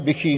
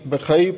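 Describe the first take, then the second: First: The word ends with a single 'ee' vowel. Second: The word ends with a separate 'ai' vowel. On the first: The speaker calls it wrong. "ਬਿਖੀ ਨਹੀਂ" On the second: The speaker calls it right. "ਬਿਖਈ ਪਾਠ ਉਚਾਰਨ ਕਰਨਾ"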